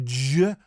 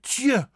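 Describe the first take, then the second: First: Voiced j in je; wrong sound. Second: Tje as "tyuh", high and loud; crisp t in tje; correct Dutch sound. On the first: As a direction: say je as "juh", lower. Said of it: "Not je". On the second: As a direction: say tje with t plus y. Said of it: "but tje". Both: Shown as a demonstration.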